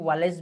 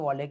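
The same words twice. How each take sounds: First: वॉलेस ending in an s sound; alternative pronunciation. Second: वॉलेक ending in a k sound; preferred pronunciation. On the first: Teacher shows students how some people read it, alternative pronunciation. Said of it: "कुछ लोग वॉलेस भी पढ़ते हैं". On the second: Teacher tells students how he pronounces it, preferred pronunciation. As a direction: say वॉलेक with a hard final k. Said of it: "वॉलेक ही इसको pronounce करता हूँ". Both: Shown as a demonstration.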